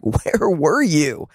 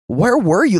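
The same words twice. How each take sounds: First: Slow hurt question. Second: Raised pleading where were you; pleading cry. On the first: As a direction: ask it slowly as if hurt. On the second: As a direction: cry it out to God in pain. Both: Acted. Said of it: "this question surfaces in many of our hearts".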